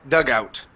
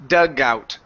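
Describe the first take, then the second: No difference in how they are said.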